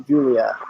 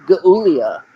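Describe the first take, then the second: First: "Julia" with a soft J sound; correct pronunciation. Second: "Gulia" with a hard G; mock mispronunciation. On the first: Shown as a demonstration. Co-host correcting James on a wrestler's name, "Julia" with soft J. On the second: Co-host teasing James over a wrestler's name, "Gulia" with hard G. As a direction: say "Gulia" starting like "goo". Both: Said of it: "That's pronounced Julia".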